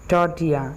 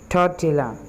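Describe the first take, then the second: First: The double L is pronounced as a Y sound. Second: The double L is pronounced as an L sound. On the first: "यहाँ पर double एल को हम इस तरह ignore कर लेंगे" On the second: "हम इससे सिंपली टॉर्टिला बोल देते हैं"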